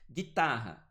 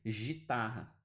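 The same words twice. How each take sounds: First: "Guitarra" with a hard G, no w glide; silent U. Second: "gitarra" starting with a "zh" sound; soft G. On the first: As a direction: announce "Guitarra" firmly, hard G into I. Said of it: "Esse U também não é pronunciado". ("Guitarra" com G duro, sem som de U) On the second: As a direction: misread "gitarra" with G like J. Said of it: "Só pra você não ler". ("gitarra" com som de J, "jitarra") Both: Shown as a demonstration.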